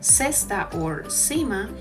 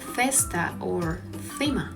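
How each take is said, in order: First: The c is pronounced like an s sound. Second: The c is pronounced like an English th. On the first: The speaker is from Latin America. "it sounds more like an S" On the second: The speaker is from Spain. "closer to the T H in English"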